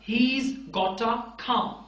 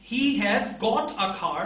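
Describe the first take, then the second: First: 'Has' is contracted onto 'he' as 'he's'. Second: 'Has' is said in full as its own word.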